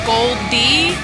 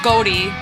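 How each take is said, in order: First: The name is said as Gold plus D. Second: The name is run together as one word. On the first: The speaker calls it right. "It's like Gold D" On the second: The speaker calls it wrong. "not Goldie"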